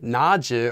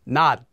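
First: The word ends with an added j-like syllable. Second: The word ends with a stopped t sound. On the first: The speaker calls it wrong. "this would also be adding in an extra sound" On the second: The speaker calls it right. "This one also would be pronounced as 낫"

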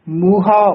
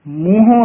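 First: The word ends in a plain, non-nasal 'a'. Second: The word ends in a nasalized 'o'. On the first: The speaker calls it right. "ਮੂਹਾ ਉਚਾਰਨ ਕਰਨਾ ਹੈ" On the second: The speaker calls it wrong. "ਮੂੰਹੋਂ ਨਹੀਂ ਬੋਲਣਾ ਹੈ"

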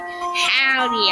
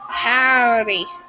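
First: It is said in his normal voice. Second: It is said in a put-on accent.

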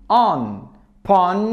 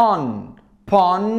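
Both takes have the same delivery.

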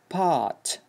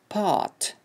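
First: The r after the vowel is dropped. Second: The r after the vowel is dropped.

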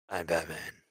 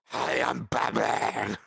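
First: A gruff voice that is still easy to understand. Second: An exaggerated gruff voice that is hard to understand.

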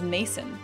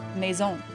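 First: The name is said in a plain English way. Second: The name is said in a French way.

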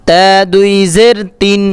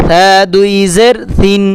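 No difference in how they are said.

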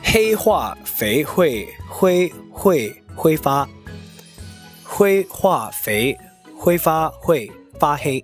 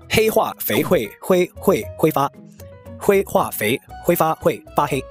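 First: It is read at a slower, normal pace. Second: It is read at a faster, sped-up pace.

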